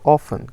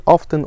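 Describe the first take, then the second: First: "often" with the t left silent. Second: "often" with the t sounded. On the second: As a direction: say "often" as OFF-ten, pronouncing the t. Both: Shown as a demonstration. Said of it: "I heard two versions of that".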